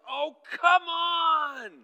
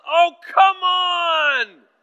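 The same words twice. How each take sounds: First: Much higher and louder, slow, drawn-out "Oh, come on!"; hammed-up toddler outburst of frustration; imitating a child's yell. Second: Much higher and far louder, very slow, drawn-out "Oh, come on!"; a father reenacting his own frustrated outburst; reenacted angry yell. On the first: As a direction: mimic a frustrated four-year-old yelling at full lungs. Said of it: "has started yelling". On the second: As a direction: burst out in exasperation at full volume. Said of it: "I burst out and I yelled".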